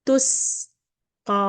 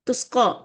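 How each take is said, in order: First: The s is held longer and sounds light. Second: The s is rushed and sounds heavy. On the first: The speaker calls it right. "நம்ம சேர்த்து டைம் கொடுத்து இதுக்கு போகணும்" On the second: The speaker calls it wrong. "நம்ம ஃபாஸ்டா நான் போறேன், டைம் நம்ம கொடுக்கலன்னா"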